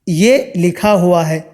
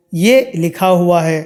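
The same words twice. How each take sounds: The two takes are said the same way.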